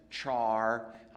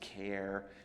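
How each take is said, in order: First: The word begins with a 'ch' sound. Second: The word begins with a 'k' sound. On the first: The speaker calls it wrong. "Some people pronounce that as char. I think that's wrong" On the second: The speaker calls it right. "I pronounce it as care"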